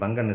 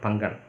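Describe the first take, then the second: First: The middle consonant is said softly, without pressure. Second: The middle consonant is pressed hard with emphasis. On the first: Someone who disgraced the goddess. The speaker calls it wrong. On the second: Someone who shares half his body with the goddess. The speaker calls it right.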